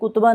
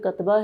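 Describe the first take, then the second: First: The first vowel is an 'u' sound. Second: The first vowel is an 'a' sound. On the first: The speaker calls it wrong. "तो ये कुतबा नहीं है" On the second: The speaker calls it right. "ये कतबा है। इसके ऊपर यहाँ ज़बर है"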